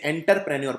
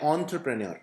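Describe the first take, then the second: First: The first syllable begins with an 'en' sound. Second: The first syllable begins with an 'on' sound. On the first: The speaker calls it wrong. "कई लोग इसे एंटरप्रेन्योर बोलते हैं। तो एंटर नहीं है" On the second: The speaker calls it right. "ऑन्ट्र है, तो आपको बोलना है ऑन्टरप्रेन्योर"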